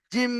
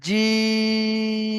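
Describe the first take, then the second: First: জিম with the mouth shut and the long stretch put on the final ম; wrong pronunciation. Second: জিম with the long stretch on the ি vowel, very slow; correct stretch. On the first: Teacher showing students the wrong way, stretching জিম at the end. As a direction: hum out the ম of জিম instead of the vowel. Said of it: "এটা কিন্তু ভুল উচ্চারণ". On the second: Teacher showing the right way, stretching জিম on the vowel. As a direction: hold the vowel of জিম, not the ম. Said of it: "এই যে চিহ্নটা বিষ খানে টান হবে". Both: Shown as a demonstration.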